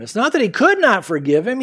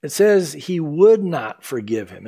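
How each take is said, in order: First: "could" punched higher and louder; stress on COULD. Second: "would" lengthened and stressed, slow. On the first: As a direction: hit "could" to set it against "would". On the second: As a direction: lean hard on "would". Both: Shown as a demonstration. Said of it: "Notice, though".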